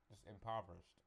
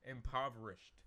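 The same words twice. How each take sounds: First: Said in the usual way. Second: "Impoverished" said louder, each syllable pressed; emphatic correction. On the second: Shown as a demonstration. Reader correcting her own slip, stressing "Impoverished". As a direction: land hard on "Impoverished" to fix the misread. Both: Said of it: "that says impoverished".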